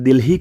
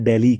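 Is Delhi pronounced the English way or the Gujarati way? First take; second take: Gujarati; English. First: The name is said with a Gujarati pronunciation. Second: The name is said with an English pronunciation. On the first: This is how Gujarati speakers say it. "આપણે દિલ્હી કહીએ છીએ" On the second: This is how English speakers say it. "ઇંગ્લિશમાં દિલ્હી કહેતા હોય છે"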